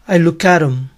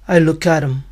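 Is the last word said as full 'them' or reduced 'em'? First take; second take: reduced em; reduced em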